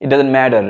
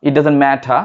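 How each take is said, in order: First: 'it doesn't matter' with t as d, r sounded; American 'matter', said MAD-er; American pronunciation. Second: 'it doesn't matter' with a true t, r silent; British 'matter', said MAT-uh; British pronunciation. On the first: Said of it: "American বলে". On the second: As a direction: keep the t, drop the r in 'matter'. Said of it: "British বলে". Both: Shown as a demonstration.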